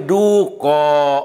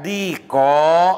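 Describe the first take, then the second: First: The first vowel is a long oo sound. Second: The first vowel is a long ee sound. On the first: "bisa ianya digantikan kepada wawu" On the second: "ianya ditetapkan"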